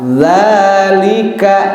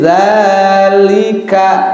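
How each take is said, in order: First: The first vowel is held long. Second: The same.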